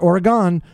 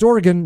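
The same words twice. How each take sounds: First: The last syllable is full, like 'gone'. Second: The last syllable is reduced, like 'gun'. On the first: The speaker calls it wrong. "not Oregon" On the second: The speaker calls it right. "I know it's Oregon"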